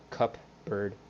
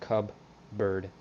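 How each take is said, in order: First: The middle consonant sounds like a P. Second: The middle consonant sounds like a B. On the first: The speaker calls it wrong. "not with a P, like cup bird" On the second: The speaker calls it right. "It's pronounced cub bird"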